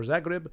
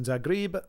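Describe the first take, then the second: First: Zagreb as "ZAH-grib", with a short last vowel; alternative pronunciation. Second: Zagreb as "ZAH-greeb"; first pronunciation variant. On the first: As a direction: offer Zagreb with a shorter ending. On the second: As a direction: say Zagreb with a long EE at the end. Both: Shown as a demonstration. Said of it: "or Zagreb".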